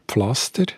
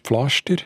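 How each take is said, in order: First: It is said in Standard German with s. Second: It is said in Swiss German with sh.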